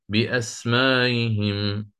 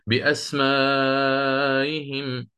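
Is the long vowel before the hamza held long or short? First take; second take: short; long. First: The vowel before the hamza is kept short. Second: The vowel before the hamza is held long. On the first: "تسهيل مع قصر" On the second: "تسهيل مع إشباع"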